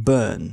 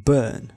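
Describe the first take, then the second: The two takes are said the same way.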